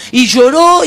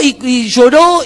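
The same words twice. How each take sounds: First: Said in the usual way. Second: "lloró" stretched slowly with a lift at the end; slowed, emphatic retelling. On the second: A narrator's reading. Preacher dwells on the friend's weeping, slow and emphatic. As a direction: linger on "lloró" and let it rise.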